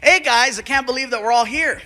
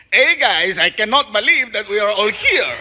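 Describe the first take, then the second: First: Said in the usual way. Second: Put-on Mexican accent. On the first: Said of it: "you sound really unenthusiastic". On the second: Voice actor adding spice on take two, Mexican accent. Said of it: "play it like a gardener".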